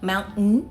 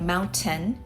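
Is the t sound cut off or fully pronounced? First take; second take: cut off; fully pronounced. First: The t sound is cut off in the middle. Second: The t sound is fully and clearly pronounced. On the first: This is how Americans say it. "Americans like to pronounce T differently" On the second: This is the expected textbook form. "instead of"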